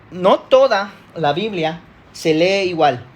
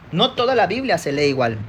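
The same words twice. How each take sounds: First: Slow, with a pause after "toda"; emphatic key statement. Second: Said in the usual way. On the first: Real, not acted. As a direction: spell out "no toda la Biblia" piece by piece, slowly. Key point stated, then repeated. (énfasis pausado en "no toda")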